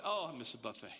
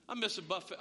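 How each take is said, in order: First: Much lower, sighing "Oh, I miss a buffet"; mock longing sigh. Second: Said in the usual way. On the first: Real, not acted. Pastor missing buffets during covid, low mock-wistful sigh.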